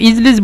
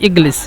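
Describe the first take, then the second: First: The middle consonant is a soft j sound. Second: The middle consonant is a hard g sound. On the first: "ইজলিস বলে অথবা ইগলিস বলে" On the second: "মিশরের বেশিরভাগ বলে ইগলিস"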